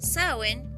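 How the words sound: It is pronounced the Irish Gaelic way. It names the month of November. "pronunciado de esa manera, es la palabra del gaélico irlandés"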